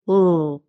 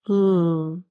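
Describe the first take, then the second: First: The L sound is thick and dark. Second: The L sound is thin and light. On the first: "Önce normal L'yi telaffuz edeceğim" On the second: "Şimdi ince L"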